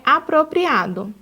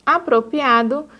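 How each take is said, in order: First: Apropriado with the r fully sounded in pria; pronúncia correta; correct pronunciation. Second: Apropriado said apropiado, dropping the second r; pronúncia errada; wrong pronunciation. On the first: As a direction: say every r in apropriado. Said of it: "o correto é apropriado". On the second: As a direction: leave out the r in pria of Apropriado. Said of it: "quando o correto é apropriado". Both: Shown as a demonstration.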